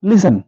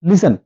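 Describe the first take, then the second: Both takes have the same delivery.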